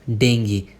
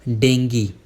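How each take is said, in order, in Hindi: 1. यह शब्द 'gee' ध्वनि से खत्म होता है। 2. यह शब्द 'gee' ध्वनि से खत्म होता है।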